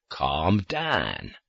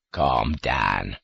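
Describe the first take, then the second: First: Lower, gentle soothing voice; lower, kindly calm. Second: Lower, gentle soothing voice; low, kindly calm. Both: A narrator's reading. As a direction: soothe a nervous child. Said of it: "like a kindly parent soothing".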